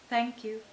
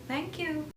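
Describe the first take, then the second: First: The pitch moves from high to low. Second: The pitch moves from low to high. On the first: "from the higher to the lower tones" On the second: "from the lower to the higher tones"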